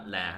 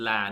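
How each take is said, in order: First: LA with a low falling tone; wrong tone on la. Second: LA held in the level tone; correct tone on la. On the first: Teacher showing learners what to avoid, LA in falling tone. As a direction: let LA sink as the wrong tone. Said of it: "not la". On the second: Teacher showing learners the word for yell, LA in level tone. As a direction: say LA level, without letting it drop. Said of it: "It's la, not la". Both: Shown as a demonstration.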